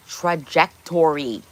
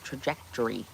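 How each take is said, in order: First: "Trajectory" slowly, syllable by syllable; careful enunciation. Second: Said in the usual way. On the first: Shown as a demonstration. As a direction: stretch out every syllable of "Trajectory".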